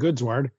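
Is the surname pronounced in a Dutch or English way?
English. The surname is said with English sounds. "I just say Ken Goodsward"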